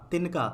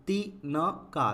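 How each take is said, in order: First: Said in the usual way. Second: तिनका split slowly as ति… न… का; syllable by syllable. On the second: Shown as a demonstration. Teacher reads the word for learners, broken up. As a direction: sound out तिनका in pieces. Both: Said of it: "पहले पढ़ लेते हैं".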